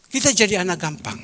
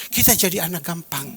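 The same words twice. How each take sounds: First: "Kita jadi anak gampang" said a touch louder and higher, leaning on "kita"; emphatic repeat. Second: Said in the usual way. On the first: Shown as a demonstration. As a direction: drive it home on "kita".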